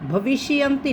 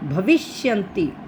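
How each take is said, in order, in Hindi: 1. sh की आवाज़ पूरी बोली जाती है, स्वर के साथ। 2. sh की आवाज़ आधी बोली जाती है, आगे से जुड़ी हुई। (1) "भविष्यन्ति नहीं बोलना" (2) "श की आवाज आधी"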